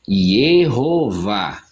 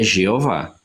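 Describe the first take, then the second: First: The name begins with a Y sound. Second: The name begins with a ZH sound. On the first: This is how the name sounds in Hebrew. "A pronúncia hebraica do nome divino é Yehová" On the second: This is how the name sounds in Portuguese. "a forma mais apropriada de se pronunciar e escrever é Jeová"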